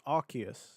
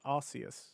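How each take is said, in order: First: The first syllable does not sound like 'arse'. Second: The first syllable sounds like 'arse'. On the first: This is the official form. "It's Arceus" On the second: This is how it is said in the UK. "not Arceus ... Arce being A S"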